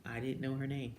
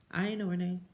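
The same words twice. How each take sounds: First: Said in the usual way. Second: Didn't hit higher and louder; stress on didn't. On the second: Real, not acted. Insisting to viewers she didn't know her name, stressing didn't. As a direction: lean hard on didn't.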